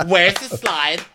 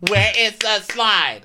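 First: High, quicker whiny demand; mock demand. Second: Each word of "Where is the slide" stretched high; drawn-out mock demand. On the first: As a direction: imitate a guest demanding "Where's the slide" in one go. First take of acted demand. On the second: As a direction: hammer out "Where is the slide" slowly and shrilly. Repeated, more emphatic acted demand.

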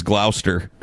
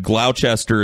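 First: GLOUCESTER said as two syllables, "GLAU-ster"; reported pronunciation. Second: GLOUCESTER said as "GLAU-chester"; spelling pronunciation. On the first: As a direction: say Gloucester squashed, no "chester". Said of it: "said Gloucester is". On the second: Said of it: "somebody in the chat just said". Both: Shown as a demonstration.

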